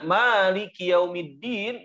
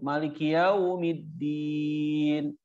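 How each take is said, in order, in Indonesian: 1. Vokal pertama 'ma' panjang. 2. Vokal pertama 'ma' pendek. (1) "di surat Al-Fatihah maknya panjang" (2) "Jadi pendek"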